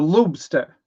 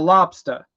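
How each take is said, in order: First: It is said in a Colorado accent. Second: It is said in a Maine accent. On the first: "people out more towards like Colorado area, it's it's a lobster" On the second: "If you're a Maine, you have a lobster"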